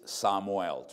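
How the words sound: It has Spanish vowels, all flat and long.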